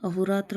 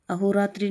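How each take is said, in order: First: Said in the usual way. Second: अहोरात्रि ending in 'tri'; mispronounced अहोरात्रि. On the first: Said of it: "अहोरात्र होगा". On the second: Shown as a demonstration. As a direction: say अहोरात्रि with a final 'i'. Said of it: "अहोरात्रि नहीं होता". (अहोरात्रि के अंत में 'त्रि')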